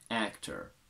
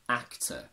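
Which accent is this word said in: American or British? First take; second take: American; British. First: It is said in an American accent. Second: It is said in a British accent.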